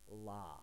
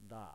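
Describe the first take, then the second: First: The consonant is a clear L sound. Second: The consonant falls between an R and an L. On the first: "If you pronounce it with an L sound" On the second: "the Japanese pronunciation for this one is actually"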